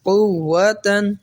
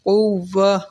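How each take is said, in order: First: The word ends with a t and n sound. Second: The word ends in an h sound, no n.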